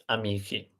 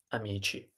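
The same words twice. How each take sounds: First: "amici" wrongly as ah-MEE-kee; mistaken hard c. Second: "amici" as ah-MEE-chee; correct soft c. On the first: Teacher shows student's mistake, "amici" with hard k. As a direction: say "amici" with a k in place of ch. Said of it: "not amici". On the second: Teacher models the masculine plural, "amici" with soft ch. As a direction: say "amici" with a ch sound before the last i. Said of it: "remember the rules of pronunciation". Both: Shown as a demonstration.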